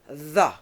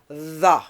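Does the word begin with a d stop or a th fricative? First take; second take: th fricative; th fricative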